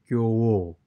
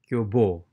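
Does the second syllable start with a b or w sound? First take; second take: w sound; b sound. First: The second syllable starts with a w sound. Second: The second syllable starts with a b sound. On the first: The speaker calls it right. "It should be kyo wo" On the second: The speaker calls it wrong. "We shouldn't be reading like that"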